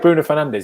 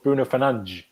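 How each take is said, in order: First: The name is said with a plain English d sound. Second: The name is said with a Portuguese-sounding d sound.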